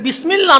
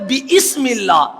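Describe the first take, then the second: First: It is said without an extra vowel after 'bi'. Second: It is said with an extra vowel after 'bi'. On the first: "এটা বিসমিল্লাহ না" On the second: "বা এর মাঝখানে একটা আলিফ ছিল"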